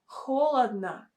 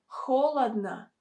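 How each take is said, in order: The two takes are said the same way.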